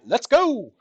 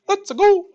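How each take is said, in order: First: It is said in a normal voice. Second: It is said imitating Mario's voice.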